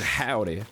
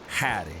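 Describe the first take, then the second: First: The word is said in its full form. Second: The word is clipped into a shortened form. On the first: "instead of saying howdy" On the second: "they say howdy. Cause they trying to shorten it down"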